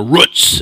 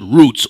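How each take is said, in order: First: "Roots" with the short vowel of "foot"; mother's pronunciation. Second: Said in the usual way. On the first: Retold or imitated. Preacher quoting his mother's way of saying "Roots", short vowel. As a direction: say "Roots" with a short oo, rhyming with "puts". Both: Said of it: "as my mother used to say".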